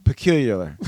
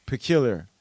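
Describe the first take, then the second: First: "Peculiar" with an extra "ler" syllable on the end; tongue-tied pronunciation. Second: Said in the usual way. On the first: Real, not acted. Host unsure how to say the word, tongue-tied attempt. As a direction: stumble "Peculiar" into "puh-KYOOL-yuh-ler". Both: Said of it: "how do I say it?".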